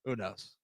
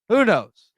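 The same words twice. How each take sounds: First: Said in the usual way. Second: Louder, exasperated shrug; emphatic. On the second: Real, not acted. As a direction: throw it out louder the second time. Repeated with more force.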